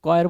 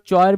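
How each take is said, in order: First: The word begins with a 'k' sound. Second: The word begins with a 'ch' sound. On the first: The speaker calls it right. "उसको कॉयर बोलते हैं" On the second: The speaker calls it wrong. "कुछ लोग चॉयर भी बोलते हैं"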